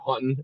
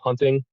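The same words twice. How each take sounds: First: The T sound in the middle is dropped. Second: The T sound in the middle is pronounced. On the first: This is how locals say it. "around here, people call it hunting" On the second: This is how it is said elsewhere. "saying hunting with the T is kind of hard"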